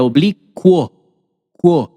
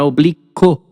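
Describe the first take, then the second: First: "oblíquo" with KWO at the end, then "quo" alone; U glide in oblíquo. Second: "oblíquo" ending in a bare CO, no W sound; mispronounced oblíquo. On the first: Teacher correcting the word for students, U glide in oblíquo. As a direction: slowly sound the U in "oblíquo": oblí-kwo, kwo. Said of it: "essa palavra não é pronunciada oblíquo". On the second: Teacher showing the class the wrong form, mispronounced oblíquo. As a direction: drop the U from "oblíquo": oblí-co. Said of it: "Não é". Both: Shown as a demonstration.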